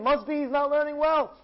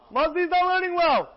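First: Raised, puzzled reasoning; working it out aloud; musing to himself. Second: Higher and louder, certain; emphatic conclusion. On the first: Rabbi Abba puzzling over Yossi's greed, raised pitch. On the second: Rabbi Abba concluding about Yossi, higher and louder. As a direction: stamp the conclusion down. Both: Acted.

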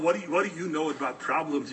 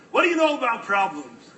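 First: Said in the usual way. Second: Pushed louder and higher, bitter; bitter louder retort. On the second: Retold or imitated. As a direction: throw the question back at him, harder. Despairing man snaps at stranger.

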